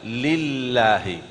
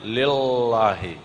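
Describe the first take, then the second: First: Lillahi with the tongue tip forward; the Quranic lam in lillahi; correct lam. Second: Lillahi with the tongue curled up; the Indonesian l in lillahi; wrong lam. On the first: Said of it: "Coba lillahi". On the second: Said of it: "Jangan lillahi". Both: Shown as a demonstration.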